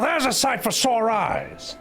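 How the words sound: It is said in a gravelly, gangster-style impression voice.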